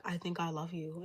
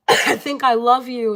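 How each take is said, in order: First: Quiet, tender murmured confession; soft love confession. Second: Blurted out loud and slow; loud love confession. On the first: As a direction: say it softly, almost under the breath. Repeated confession, softer take. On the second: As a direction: belt the confession out slowly, all in. Acted confession in tarot scenario. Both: Acted.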